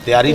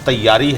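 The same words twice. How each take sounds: First: The middle y sound is short and single. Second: The middle y sound is held and doubled. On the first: The speaker calls it wrong. "नहीं कहना" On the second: The speaker calls it right. "वो लफ्ज़ दो दफ़ा बोला जाता है"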